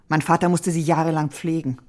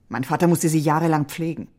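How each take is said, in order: The two takes are said the same way.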